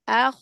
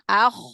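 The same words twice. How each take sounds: First: The throat friction is light and gentle. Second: The throat friction is harsh, like snoring. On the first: The speaker calls it right. "sukun maka seperti itu" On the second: The speaker calls it wrong.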